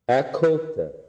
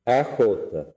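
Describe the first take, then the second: First: The word for coat starts with a hard 'k'. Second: The word for coat starts with a breathy 'ch'. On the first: The coat belongs to a woman. "her, does not cause aspiration" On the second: The coat belongs to a man. "his, cause aspiration"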